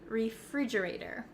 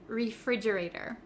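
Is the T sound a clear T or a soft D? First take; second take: soft D; soft D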